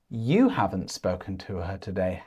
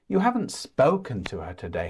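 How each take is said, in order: First: The word her carries the main stress. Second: The word spoken carries the main stress. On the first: The question is about the person. "Or about the person" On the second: The question is about the speaking. "you stress the word spoken"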